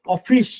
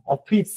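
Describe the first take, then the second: First: অফিস ending in a sh sound; Bengali pronunciation. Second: অফিস ending in a hissing English s; English pronunciation. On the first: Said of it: "আর বাংলা উচ্চারণ কি হয়?". (অফিস-এর শেষে বাংলা 'শ' ধ্বনি) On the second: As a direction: say অফিস the English way, with a clean s at the end. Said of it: "ইংলিশে তো উচ্চারণ কি জানেন? এরকম". (অফিস-এর শেষে ইংরেজি 'স' ধ্বনি) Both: Shown as a demonstration.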